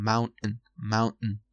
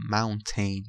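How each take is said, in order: First: Mountain with the T and vowel swallowed; reduced ending. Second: Mountain with a clear "ten"; both syllables of mountain fully sounded; full ending. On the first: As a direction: say mountain as "MOUN-n". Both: Shown as a demonstration. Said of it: "mountain یا mountain".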